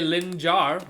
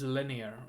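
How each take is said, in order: First: The middle has a hard J sound. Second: The middle has no hard J sound. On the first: The speaker calls it wrong. "I know it's tempting to say lin jar" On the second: The speaker calls it right. "That's apparently how it's pronounced"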